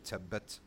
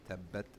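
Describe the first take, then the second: First: The t sound has a hissing whistle. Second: The t sound is dry with no whistle. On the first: The speaker calls it wrong. "that whistling sound you want to avoid" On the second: The speaker calls it right. "You have to make it dry"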